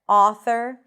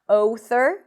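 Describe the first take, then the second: First: The first vowel stays one steady sound. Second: The first vowel glides from one sound to another. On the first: The speaker calls it right. "but author and law" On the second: The speaker calls it wrong. "So not author"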